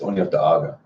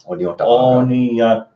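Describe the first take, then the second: First: The word is said at normal speed. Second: The word is said slowly.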